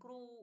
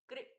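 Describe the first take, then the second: First: The syllable ends with a long 'oo' sound. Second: The syllable ends with a short 'i' sound. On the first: The speaker calls it wrong. "क्रू ऐसे नहीं करना है" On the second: The speaker calls it right. "कृ ठीक है"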